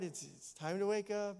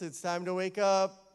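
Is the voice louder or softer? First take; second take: softer; louder. First: It is said softly and gently. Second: It is said a little louder. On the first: It is a first gentle call. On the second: Time is getting short.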